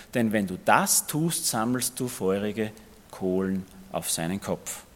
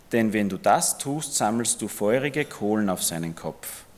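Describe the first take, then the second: Both takes have the same delivery.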